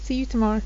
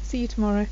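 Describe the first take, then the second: First: The word 'you' is shortened and merged in. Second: The same.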